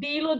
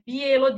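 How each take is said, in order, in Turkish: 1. İlk ünlü düz bir i sesidir. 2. İlk ünlü bir ie kayma sesidir. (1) "deniz tarafından gelen Bilo diyecek" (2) "Onlar i Ekavica kullanıyorlar. Bielo diyecekler"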